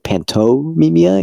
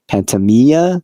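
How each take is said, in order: First: The name is said with every syllable. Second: The name is said with one syllable missing.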